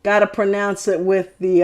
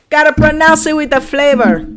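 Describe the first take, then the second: First: Said in the usual way. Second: Put-on higher-pitched playful Puerto Rican accent; Boricua accent. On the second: Showing how to pronounce it with flavor, Boricua accent. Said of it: "Boricua flavor".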